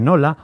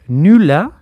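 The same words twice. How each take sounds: First: Said in the usual way. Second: Nula with a u where nola has o. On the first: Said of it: "en vez de nola". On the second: Shown as a demonstration. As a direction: close the first vowel of nula to a Souletin u. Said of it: "las O pasan a ser U".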